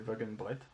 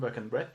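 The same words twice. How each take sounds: First: The name is pronounced with German-style sounds. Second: The name is pronounced with French-style sounds. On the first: The speaker calls it right. "est un artiste allemand, donc ... mais Wagenbrecht, je pense" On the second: The speaker calls it wrong. "on ne le prononce pas du tout Wagenbrecht"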